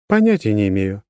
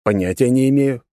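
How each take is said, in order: First: Said in the usual way. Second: Mocking echo of the line; teasing. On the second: A narrator's reading. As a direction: needle her with it. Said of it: "не сдержался от подколки".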